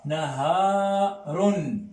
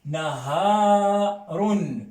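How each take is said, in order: First: "naharun" répété très lentement, h aspiré; mot arabe naharun. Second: "Naharun" très lent et plus fort, h aspiré; détachez chaque syllabe de "Naharun"; mot arabe naharun. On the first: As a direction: redites "naharun" syllabe par syllabe. (répétition lente de "naharun") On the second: ("Naharun" articulé lentement pour la classe) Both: Shown as a demonstration. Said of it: "Qu'est-ce que c'est que naharun".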